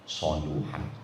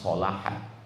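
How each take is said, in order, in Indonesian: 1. Vokal kedua adalah bunyi 'u'. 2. Vokal kedua adalah bunyi 'a'. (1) "Tapi kalau dua, soluhan" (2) "Kalau satu kitab memang solahan"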